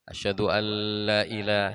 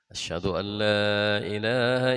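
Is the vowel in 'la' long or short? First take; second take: short; long. First: The vowel in 'la' is short. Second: The vowel in 'la' is long. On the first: There is a god besides God. The speaker calls it wrong. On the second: There is no god but God. The speaker calls it right. "La-nya mesti ada matnya"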